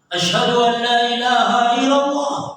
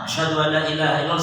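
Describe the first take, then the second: First: It is said loudly. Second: It is said quietly.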